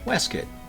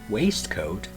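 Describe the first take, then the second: First: The word is slurred together, reducing its sounds. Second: Every syllable of the word is said fully. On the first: "is pronounced Westcott in England" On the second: "the word waistcoat"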